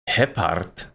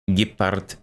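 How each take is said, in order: First: It is said with a Ukrainian pronunciation. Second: It is said with a Russian pronunciation. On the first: "That's that's Ukrainian" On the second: "That's Russian"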